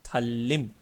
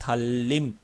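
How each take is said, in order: First: The second syllable starts with an l sound. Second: The second syllable starts with an l sound.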